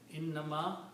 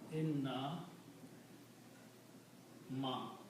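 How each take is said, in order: First: It is said as one unbroken word. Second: It is split into two parts with a break. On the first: I am only a human being. The speaker calls it right. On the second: Indeed, I am not a human being. The speaker calls it wrong.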